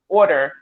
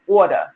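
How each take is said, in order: First: The vowel sounds like standard American English. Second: The vowel sounds like a New York accent. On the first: "instead of saying order" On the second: "we say order"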